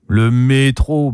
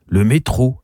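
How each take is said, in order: First: Slow, drawn-out trumpeting, higher in pitch; mild bellow. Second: Short, mildly scornful echo; contemptuous. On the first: Uncle announces the métro to his niece, mild bellow. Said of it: "bugle Gabriel". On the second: Niece distrusts her uncle's claim, contemptuous. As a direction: repeat it with understated disdain. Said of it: "ajoute-t-elle avec mépris". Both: A narrator's reading.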